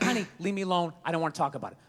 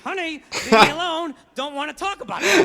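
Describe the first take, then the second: First: It is said in a calm, dismissive voice. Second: It is said angrily through clenched teeth.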